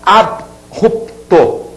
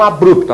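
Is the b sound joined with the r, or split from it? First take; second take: split; joined. First: The b ends the first syllable, apart from r. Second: The b joins the r as one syllable. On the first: The speaker calls it right. "A pronúncia é abrupto" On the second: The speaker calls it wrong. "deu margem à pronúncia bru, que está errada"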